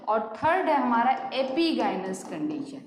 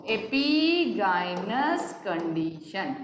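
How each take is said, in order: First: Said in the usual way. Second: "epigynous" stretched very slowly, syllable by syllable; very slow dictation. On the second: Shown as a demonstration. Teacher repeating the term for students to write, very slow. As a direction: spell "epigynous condition" out slowly.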